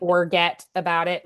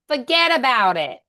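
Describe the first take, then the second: First: It is said in a standard accent. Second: It is said in a regional accent. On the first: "instead of" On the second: "like they say"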